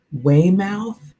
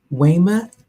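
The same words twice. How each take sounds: First: "Weymouth" with second syllable rhyming with "south"; unsure pronunciation. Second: "Weymouth" with reduced second syllable, WAY-muth; unsure pronunciation. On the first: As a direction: say "Weymouth" as WAY-mouth, questioning. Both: Shown as a demonstration. Tries two pronunciations of town name.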